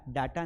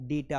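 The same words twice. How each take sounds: First: डाटा with a long "aa" first vowel; wrong pronunciation. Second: डेटा with "day" as first syllable; correct pronunciation. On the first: Teacher showing students the wrong form, डाटा with "daa". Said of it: "डाटा नहीं होता है". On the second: Teacher correcting students, डेटा starting with "day". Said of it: "डेटा होता है". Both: Shown as a demonstration.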